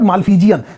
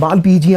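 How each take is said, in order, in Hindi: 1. दूसरा व्यंजन ध्वनि f है। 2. दूसरा व्यंजन ध्वनि p है। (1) "so this is not मालफीजियन" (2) "this is मालपीजियन"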